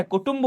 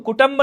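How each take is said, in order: First: कुटुंब with u in both syllables, ku-tumb; correct form. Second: कुटुंब said as ku-tamb; wrong form. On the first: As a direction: keep the second u in कुटुंब. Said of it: "कुटुंब होता है". (कुटुंब, दोनों अक्षरों में छोटा उ) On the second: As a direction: open the second vowel of कुटुंब to a short a. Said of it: "नहीं होता है". (कुटुंब को कुटंब बोलें, दूसरा उ हटाकर) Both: Shown as a demonstration.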